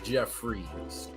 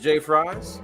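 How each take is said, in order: First: The name begins with the sound 'Jeff'. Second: The name begins with the letter sound 'Jay'. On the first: The speaker calls it right. "The J and the F make a Jeff sound" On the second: The speaker calls it wrong. "I can understand why you would think that's J Fries, but it's not"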